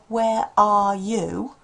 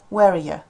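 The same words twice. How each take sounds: First: Each word is said in its full form. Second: The words are reduced and run together. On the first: "if they're expecting to hear" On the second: "And they hear"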